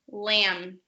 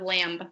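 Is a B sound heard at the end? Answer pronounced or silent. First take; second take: silent; pronounced. First: The word ends without a B sound. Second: The word ends with a B sound. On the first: The speaker calls it right. "So the B is silent" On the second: The speaker calls it wrong. "instead of lamb"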